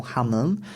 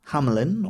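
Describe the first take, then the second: First: "Hameln" said the German way, ending in -eln; German-style "Hameln"; German pronunciation. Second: "Hamelin" said the English way, in three syllables; English-style "Hamelin"; English pronunciation. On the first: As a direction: say "Hameln" with the ending squeezed short. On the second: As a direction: say "Hamelin" with a clear middle syllable. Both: Shown as a demonstration. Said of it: "known as Hameln in German".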